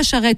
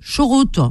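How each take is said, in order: First: The vowels sound like a and e. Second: The vowels sound like o sounds. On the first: "ils disent pas charrette" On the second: "le A, ils le prononcent O. ... ils disent chorote"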